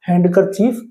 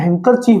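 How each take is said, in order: First: The d sound is pronounced. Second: The d sound is silent. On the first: The speaker calls it wrong. "इसको हैंड कर chief नहीं बोला जाता" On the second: The speaker calls it right. "जब इसको इकट्ठा बोलते हैं तो हैंकर चीफ बोला जाता है"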